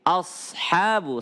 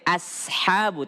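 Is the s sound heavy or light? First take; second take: heavy; light. First: The s sound is heavy and thick. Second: The s sound is light and thin. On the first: The speaker calls it right. "tapi ashabu. Sad, tebal" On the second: The speaker calls it wrong. "jangan sampai ashabu"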